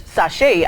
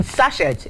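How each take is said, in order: First: "sachet" said sa-SHAY; local pronunciation. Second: "sachet" said SASH-et; spelling pronunciation. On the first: Presenter reading to listeners, "sachet" pronounced sa-SHAY. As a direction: say "sachet" with an open -ay ending, no final t. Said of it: "I mean sachet". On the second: Presenter clarifying for listeners, "sachet" pronounced SASH-et. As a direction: sound the final t in "sachet", SASH-et. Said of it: "it's not pronounced as sachet". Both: Shown as a demonstration.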